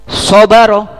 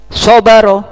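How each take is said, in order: Both takes have the same delivery.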